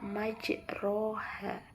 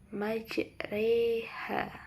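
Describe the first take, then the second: First: The vowel after the r sounds like a plain 'o'. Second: The vowel after the r is tilted toward 'e'. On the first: The speaker calls it wrong. "secara fisik tentu kita akan membaca majroha" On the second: The speaker calls it right. "memiringkan fathah ke arah kasroh"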